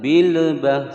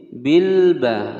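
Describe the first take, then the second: First: The l is said with a bouncing release. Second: The l is said clearly without any bounce. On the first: The speaker calls it wrong. "salah ya" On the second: The speaker calls it right. "harus dibaca jelas, tidak boleh dipantulkan"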